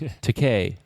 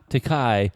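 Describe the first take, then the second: First: The final syllable rhymes with toupee. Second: The final syllable does not rhyme with toupee. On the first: The speaker calls it right. "like in toupee" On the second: The speaker calls it wrong. "not Takai, like you've insisted on pronouncing it for forty years"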